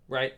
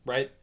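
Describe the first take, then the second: No difference in how they are said.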